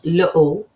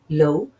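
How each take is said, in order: First: The L is kept apart from the vowel. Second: The L runs straight into the vowel. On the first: The speaker calls it wrong. "It's not l'eau, all right? Don't don't say that" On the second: The speaker calls it right. "You'd say l'eau"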